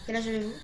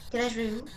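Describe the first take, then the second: No difference in how they are said.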